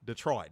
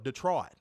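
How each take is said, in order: First: Detroit said lower, the last t dropped; Detroit, swallow the ending like a local. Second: Detroit with a clipped end, the t dropped; Detroit the local way. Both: Shown as a demonstration. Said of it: "You gotta say it like that".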